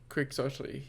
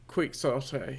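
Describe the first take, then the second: First: It is said with the usual traditional pronunciation. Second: It is sounded out literally, letter by letter. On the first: "yeah. Something like that" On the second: "if you're gonna go with a really literal pronunciation, phonetically"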